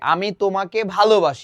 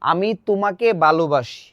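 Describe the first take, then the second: First: The 'bh' is pronounced with a breathy puff. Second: The 'bh' is pronounced as a plain b. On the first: The speaker calls it right. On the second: The speaker calls it wrong.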